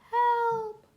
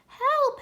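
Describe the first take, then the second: First: It is said in a quiet voice. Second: It is said very loudly.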